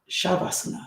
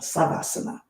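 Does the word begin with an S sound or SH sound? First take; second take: SH; S. First: The word begins with an SH sound. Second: The word begins with an S sound.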